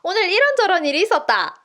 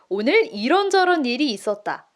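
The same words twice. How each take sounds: First: It is said with a Gyeongsang dialect intonation. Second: It is said with a softer, standard intonation. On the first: The speaker calls it wrong. "보통 이제 부산 분들이나 경상도 분들이 어떻게 있냐면" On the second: The speaker calls it right. "이 1 부분을 다 숫자 2처럼 얘기해 볼게요. ... 조금 한결 부드러워지죠?"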